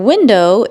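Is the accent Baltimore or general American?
general American. It is said in a general American accent. "For window"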